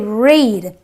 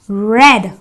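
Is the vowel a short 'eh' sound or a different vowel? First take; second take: different vowel; eh. First: The vowel is not a short eh. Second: The vowel is a short eh sound. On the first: The speaker calls it wrong. "I don't say read" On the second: The speaker calls it right. "so I say read"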